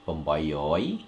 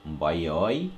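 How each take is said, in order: First: It begins with a full 'pom' syllable. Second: The 'pom' start is shortened to a nasal. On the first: "you say pom nah, from uh, seven to nine" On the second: "another way you can say"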